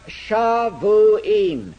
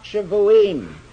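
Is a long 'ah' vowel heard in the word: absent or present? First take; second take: present; absent. First: The word has a long 'ah' vowel. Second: The word has no long 'ah' vowel. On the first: It is actually a different word. "the ah sound there is a vowel which in the Hebrew language is naturally long" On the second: It is the ordinary plural form. "If it were the ordinary form, you would expect it to be pronounced"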